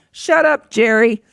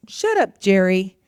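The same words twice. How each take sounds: First: Raised, higher mock yell. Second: Dismissive retort. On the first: Mother yells down to daughter at homework, playful mock yell. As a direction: call it out sharply to another room. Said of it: "but I will yell down". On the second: Retold or imitated. Mother quotes daughter answering her inner critic, mild retort. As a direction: imitate a kid brushing off a critic. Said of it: "and she goes, "I'd say, like".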